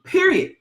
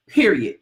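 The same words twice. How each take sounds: First: Period. said much higher and sharper; emphatic repeat. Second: Said in the usual way. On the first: Shown as a demonstration. Telling listeners there's no other way, a higher emphatic Period. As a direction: hit Period. high for emphasis.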